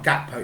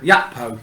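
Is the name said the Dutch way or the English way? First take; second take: English; Dutch. First: The name is said with an English-style hard opening. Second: The name is said with a Dutch-style opening sound. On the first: The speaker calls it wrong. "His name's not Gakpo" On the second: The speaker calls it right. "is a Dutch pronunciation"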